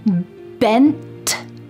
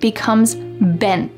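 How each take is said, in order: First: The final T is fully released with air. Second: The final T is stopped without releasing air.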